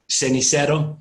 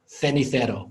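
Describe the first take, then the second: First: The first consonant is an s sound. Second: The first consonant is a th sound. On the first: "they're not going to say" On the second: "with a th"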